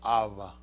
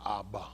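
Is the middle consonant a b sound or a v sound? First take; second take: v sound; b sound. First: The middle consonant is a v sound. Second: The middle consonant is a b sound. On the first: This is how the translators say it is actually enunciated. "it leans more toward a b a v sound" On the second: This is how it is usually heard and said. "we're saying Abba"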